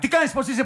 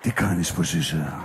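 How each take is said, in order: First: The voice is at ordinary pitch. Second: The voice is low and deep. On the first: It fails to attract anyone. The speaker calls it wrong. "Γιατί κάνει την κανονική φωνή" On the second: It is meant to be seductive. The speaker calls it right. "με βάζει με μπάσα φωνή. Ξέρεις αυτή την ξεσηκωτική"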